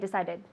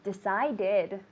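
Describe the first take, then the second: First: The word is said quickly with only two syllables. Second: The word is said fully with three syllables. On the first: The speaker calls it wrong. "don't say decided" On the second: The speaker calls it right. "It's an extra syllable"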